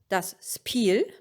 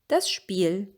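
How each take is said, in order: First: The s before p sounds as spelled. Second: The s before p sounds changed, not spelled. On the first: This is a northern dialect form. The speaker calls it wrong. "Not das Spiel" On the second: This is the usual standard form. The speaker calls it right. "the S P becomes Sp"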